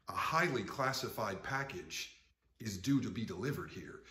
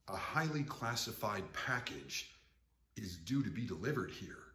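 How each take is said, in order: Both takes have the same delivery.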